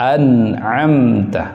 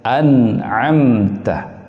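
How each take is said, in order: Both takes have the same delivery.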